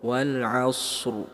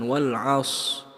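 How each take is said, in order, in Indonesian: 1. Bunyi s dibaca panjang, lalu diikuti r yang pendek. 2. Bunyi r di akhir dihilangkan sama sekali. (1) "shad lebih panjang daripada huruf ro" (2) "dihilangkan wal as"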